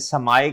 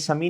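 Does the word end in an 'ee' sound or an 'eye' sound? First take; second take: eye; ee. First: The word ends with an 'eye' sound. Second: The word ends with an 'ee' sound. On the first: The speaker calls it right. "समाये कहते हैं" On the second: The speaker calls it wrong. "सेमी सेमी सेमी नहीं कहते"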